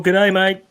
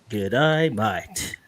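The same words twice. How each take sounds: First: Higher-pitched Aussie greeting; cheery mock-Australian g'day; Australian accent. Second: Low, drawling Aussie g'day; hammed-up Australian greeting, falling away; Australian accent. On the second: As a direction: overdo the Australian vowels, dropping low. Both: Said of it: "That's my best Australian accent".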